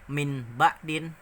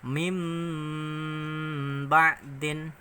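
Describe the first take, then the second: First: The first word ends with an n sound. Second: The first word ends with an m sound. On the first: The speaker calls it wrong. "Jadi bacanya bukan min ba'din" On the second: The speaker calls it right. "tapi dibaca mim"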